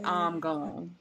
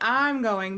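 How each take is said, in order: First: It is said with a slow, drawled accent. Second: It is said plainly, without a drawl. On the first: This is how the locals say it. "they say I'm going" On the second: This is not how the locals say it. "They don't say I'm going"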